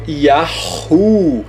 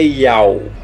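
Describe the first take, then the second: First: An h sound is heard before the u. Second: No h sound is heard before the u. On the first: The speaker calls it right. "você não pode tirar o som do H" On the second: The speaker calls it wrong. "Não é Yau"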